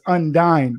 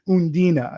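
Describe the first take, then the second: First: The name ends without a final vowel sound. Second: The name ends with a final 'ah' vowel. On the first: The speaker calls it wrong. "I was originally pronouncing it as Undine" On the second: The speaker calls it right. "but it's Undina"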